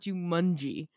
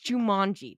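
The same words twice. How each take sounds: First: The middle syllable sounds like 'mun'. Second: The middle syllable sounds like 'man'. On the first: The speaker calls it wrong. "It's not like a fungi" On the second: The speaker calls it right. "It's like Jumanji, M-A-N"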